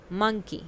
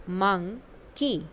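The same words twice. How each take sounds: First: Said in the usual way. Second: "monkey" stretched out slowly, syllable by syllable; slow model word. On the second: Shown as a demonstration. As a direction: say it slowly so kids can copy. (धीरे-धीरे खींचकर "monkey") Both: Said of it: "listen to your teacher and say the following word".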